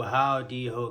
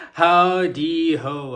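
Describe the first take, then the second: First: Said in the usual way. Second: Slow, loud, high sing-song hello; hammed-up greeting. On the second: Vlogger greeting her viewers, loud and stretched out. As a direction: stretch it out like a cheery host.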